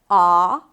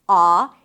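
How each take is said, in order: Both takes have the same delivery.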